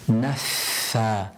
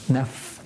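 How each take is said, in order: First: The f has an audible burst of air. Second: The f is trapped with no audible air. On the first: The speaker calls it right. "there's a burst of air whilst I'm pronouncing the fa" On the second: The speaker calls it wrong. "You're trapping the sound of the air and the letter, and it's not audible"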